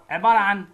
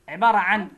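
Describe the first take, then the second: No difference in how they are said.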